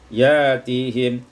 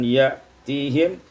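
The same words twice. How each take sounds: First: A long vowel replaces the glottal stop. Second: A glottal stop is heard after ya.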